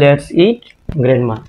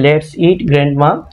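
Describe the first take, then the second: First: There is a pause after eat. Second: It runs on without a pause after eat. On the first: The speaker invites grandma to eat. "দ্বিতীয় সেন্টেন্সে ইটের পরে কমা আছে" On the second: The speaker proposes eating grandma. "প্রথমটাতে ইটের পরে কমা নেই"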